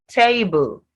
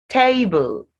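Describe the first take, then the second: The two takes are said the same way.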